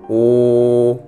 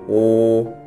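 First: The syllables are said at a slow pace. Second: The syllables are said at a fast pace. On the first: "천천히" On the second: "더빨리따라하세요"

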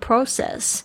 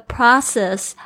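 First: It is said with a British pronunciation. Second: It is said with an American pronunciation.

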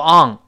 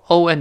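First: The tongue back rises, giving an ng-like ending. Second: The tongue back stays flat, ending in plain n. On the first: The speaker calls it wrong. "不要再读on" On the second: The speaker calls it right. "舌根不能动on"

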